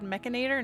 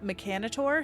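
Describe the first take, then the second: First: The word is pronounced the American-style way. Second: The word is pronounced the Australian-style way. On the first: The speaker usually says it this way. "I've always said mechanator" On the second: Another player says it this way. "not mechanator"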